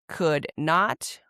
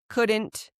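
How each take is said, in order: First: Not is said as a separate full word. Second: Not is shortened and joined to the verb. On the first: "you just add not" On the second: "this is how you would pronounce them as a native speaker does"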